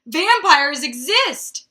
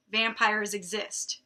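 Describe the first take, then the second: First: Loud, high, drawn-out mock scream; screaming headline. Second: Said in the usual way. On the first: A narrator's reading. Reader voicing the headline from the book, mock screaming. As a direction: belt it out slowly like a tabloid headline. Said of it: "the headline screamed".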